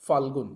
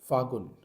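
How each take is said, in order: First: The word is said with an L sound. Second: The word is said without an L sound. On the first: This is the standard form. The speaker calls it right. "सही उच्चारण फाल्गुन होगा" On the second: This is the regional everyday form. The speaker calls it wrong. "हमारे छत्तीसगढ़ में फागुन बोला जाता है"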